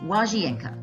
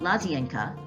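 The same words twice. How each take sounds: First: The word begins with a W sound. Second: The word begins with an L sound. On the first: The speaker calls it right. "The L with a strike through it is pronounced as a W sound" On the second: The speaker calls it wrong. "it's not łazienka"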